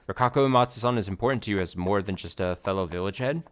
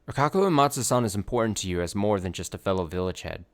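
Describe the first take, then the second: First: The voice rises at the end like a question. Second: The voice falls at the end like a statement. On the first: It is asked as a question. The speaker calls it right. "Question mark?" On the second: It is a statement of fact. The speaker calls it wrong. "I didn't say that in a question"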